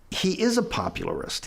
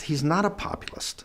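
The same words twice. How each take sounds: First: "is" lifted high in "He is a popularist"; stress on IS. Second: "not" set against "is", raised pitch; stress on NOT. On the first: Adviser concedes to his colleague, stressing "is" before "popularist". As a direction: punch "is", then say "popularist" with the extra "ar". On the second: Adviser rejects his own correction, stressing "not" before "populist". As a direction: stress "not", then say "populist" in three syllables. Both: Retold or imitated. Contrasts the two words.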